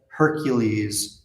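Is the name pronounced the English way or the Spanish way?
English. The name is pronounced with English sounds. "if you were pronouncing it in English"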